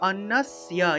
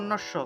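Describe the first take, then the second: First: The consonant sounds like an English dental 's'. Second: The consonant sounds like 'sh', Bengali style. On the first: The speaker calls it right. "সংস্কৃত শুদ্ধ উচ্চারণের সময় অন্নস্যা এইভাবে উচ্চারণ করতে হবে" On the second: The speaker calls it wrong. "বাংলায় বললে অন্নস্য"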